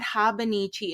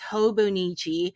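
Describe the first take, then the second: First: The first two vowels sound like 'ah'. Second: The first two vowels sound like 'oh'. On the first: The speaker calls it wrong. "it's not Habanichi" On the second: The speaker calls it right. "it's Hobonichi"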